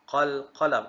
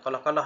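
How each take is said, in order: First: The closing q of the first syllable is pronounced. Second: The closing q of the first syllable is dropped. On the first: The speaker calls it right. "Qalqalah bermaksud qalqalah" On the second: The speaker calls it wrong. "bukan qalah-qalah"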